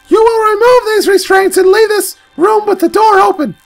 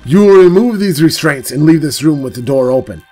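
First: It is said in a high, girlish put-on voice. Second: It is said in his normal voice.

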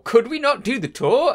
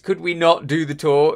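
First: It sounds excited, eager for the tour. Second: It sounds reluctant, not wanting the tour.

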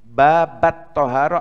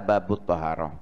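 First: The first word ends with an 'a' vowel. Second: The first word ends with an 'u' vowel.

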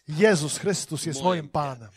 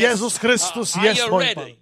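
First: The phrase is spoken at normal volume. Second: The phrase is shouted very loudly. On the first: "Wypowiemy to" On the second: "A później zakrzyczymy to"

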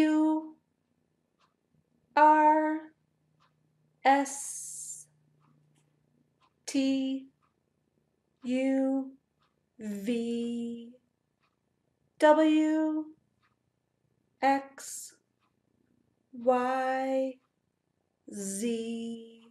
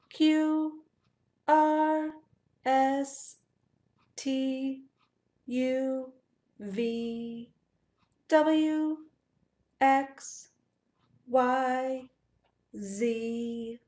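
First: The letters are said slowly. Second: The letters are said very fast.

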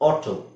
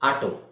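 First: The first vowel is a rounded English 'aw'. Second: The first vowel is an open Kannada 'aa'. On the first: The speaker calls it right. "But ಅದು ಹೇಗೆ ಹೇಳ್ಬೇಕು ನಾವು" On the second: The speaker calls it wrong. "ನಾವು ಹೆಂಗೆ ಹೇಳ್ತೀವಿ"

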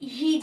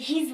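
First: The word ends with a buzzing z sound. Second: The word ends with a hissing s sound. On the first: The speaker calls it right. "হিজ বলি আমরা" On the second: The speaker calls it wrong. "এটাকে হিজ বলি না"

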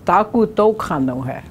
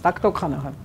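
First: The phrase is said slowly with every syllable distinct. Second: The phrase is said quickly with syllables run together. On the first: "when you write it down and you say it slow" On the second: "When it's fast speech, it's takto kano he. Just real fast"

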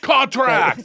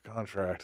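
First: It is said louder, like a shout. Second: It is said quietly and timidly.

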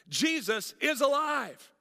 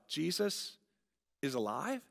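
First: It is said as a firm statement. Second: It is said as a doubtful question.

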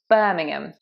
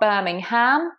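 First: The last syllable is a short 'um' sound. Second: The last syllable is a full 'ham' sound. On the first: The speaker calls it right. "we have a silent H" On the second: The speaker calls it wrong. "It's not Birmingham"

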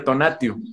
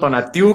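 First: The stress falls on the second-to-last syllable. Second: The stress falls on the last syllable. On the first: This is the original form of the name. "el nombre original es una palabra grave" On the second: This is the adapted form the speaker grew up with. "con acento en la U"

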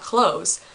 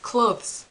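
First: The word sounds just like 'close'. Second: The word sounds different from 'close'. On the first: The speaker calls it wrong. "The door can close, but this is not clothes" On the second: The speaker calls it right. "It's clothes"

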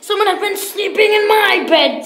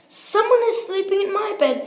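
First: It is said in a great big voice. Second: It is said in a wee little voice.

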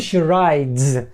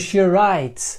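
First: The word ends in a voiced d and z. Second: The word ends in a voiceless t and s. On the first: She rides a bike. The speaker calls it right. "І у нас вже не буде «she rides»" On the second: She writes. The speaker calls it wrong. "ми тут замість з вимовили звук с і приглушили цей звук ди"

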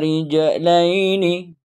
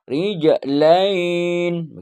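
First: The word ends with its full final vowel. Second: The word ends cut short without its final vowel. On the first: "Dibaca semua ya" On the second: "Sesudah Iqra ini enggak"

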